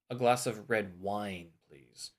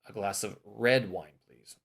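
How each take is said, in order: First: The stress is on wine. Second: The stress is on red.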